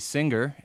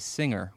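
First: A hard G sound follows the ng sound. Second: No hard G sound follows the ng sound. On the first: "You say singer" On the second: "with no hard G sound between the ng and the R"

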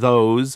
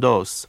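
First: It begins with a th sound. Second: It begins with a d sound. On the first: "instead of saying" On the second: "they're more likely to say"

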